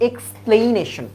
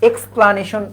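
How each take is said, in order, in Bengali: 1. দ্বিতীয় সিলেবলটি 'plain' এর মতো শোনায়। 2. দ্বিতীয় সিলেবলটি 'pla' এর মতো শোনায়। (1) "তোমরা অনেকে বলো এক্সপ্লেনেশন" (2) "ওটা কিন্তু দেখো এক্সপ্লানেশন"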